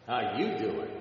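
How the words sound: It is said in a Joey Tribbiani voice.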